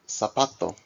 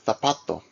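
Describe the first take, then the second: First: The z is said like an s. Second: The z is said like a th. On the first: This is how it is said in the Americas. "in the Americas, Z is pronounced as an S in all cases" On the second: This is how it is said in Spain. "in Spain, Z is pronounced as a T H in all cases"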